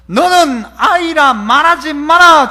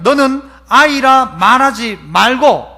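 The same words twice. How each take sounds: First: Slow, firm commanding voice; slow, weighty divine command; God's command. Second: Slow, firm scripture reading; measured divine command; reading God's words. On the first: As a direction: lay down the Lord's word. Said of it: "주님 그렇게 말씀하시죠". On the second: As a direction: deliver it slowly like scripture. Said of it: "여호와께서 내게 이르시되". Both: Retold or imitated.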